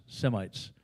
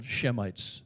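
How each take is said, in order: First: Said in the usual way. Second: "Shemites" pronounced SHEM-ites, echoing the name Shem; old form "Shemites". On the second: Shown as a demonstration. Preacher shows congregation where Semites comes from, "Shemites" with "sh". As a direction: say "Shemites" with an opening "sh".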